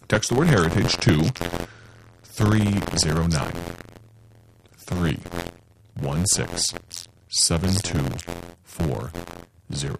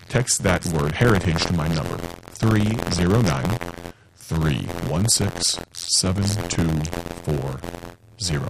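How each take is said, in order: First: It is said slowly. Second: It is said at normal speed.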